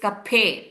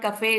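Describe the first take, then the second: First: The middle p has a strong puff of breath. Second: The middle sound is plain, without a breath. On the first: The speaker calls it right. "P H sound" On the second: The speaker calls it wrong. "It's not cafe"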